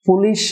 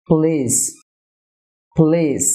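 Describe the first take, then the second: First: পুলিশ as two even syllables, "pu-lish"; full u in পুলিশ; wrong pronunciation. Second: পুলিশ as "p'LEES", first vowel nearly gone; correct pronunciation. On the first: (পুলিশ-এর ভুল উচ্চারণ, স্পষ্ট "পু") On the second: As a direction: squeeze পুলিশ to "pliis", long ee, final s. (পুলিশ-এর সঠিক উচ্চারণ, "প্লীস") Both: Shown as a demonstration. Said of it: "না হয়ে হবে".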